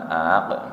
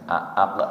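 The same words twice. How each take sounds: First: The second glottal stop is softened, almost gliding. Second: Both glottal stops are pronounced clearly and fully. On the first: The speaker calls it wrong. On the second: The speaker calls it right. "Kalau ini bacanya seperti biasa"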